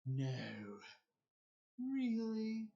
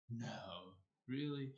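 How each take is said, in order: First: High, loud, exaggerated sarcastic mock surprise; obvious sarcasm. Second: Sarcasm mistaken for British. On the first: Shown as a demonstration. Showing how most people do sarcasm, obviously sarcastic. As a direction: lay the sarcasm on thick, pitched way up. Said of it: "most people when they're sarcastic". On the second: Retold or imitated. Repeating the reply that sounded British, understated sarcastic. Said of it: "sounded as if I was British".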